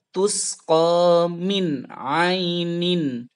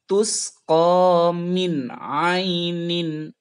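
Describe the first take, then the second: No difference in how they are said.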